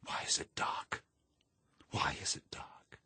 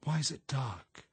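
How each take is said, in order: First: Hushed, whispered inner scream; voiceless, desperate whisper; screaming in thought. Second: High, anxious question, fully voiced; frightened, high-pitched asking; trying to ask. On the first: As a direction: whisper it like a scream held inside. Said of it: "and then thought screamingly". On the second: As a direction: plead to know, pitch raised. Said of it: "she tried to ask". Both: A narrator's reading.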